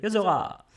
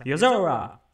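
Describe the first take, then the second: First: "Yozora" with a French uvular r. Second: "Yozora" with an English r, loud and falling; English-style Yozora. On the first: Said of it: "Au lieu de". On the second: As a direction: say "Yozora" the English way, r almost gone. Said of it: "très, très anglais en français". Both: Shown as a demonstration.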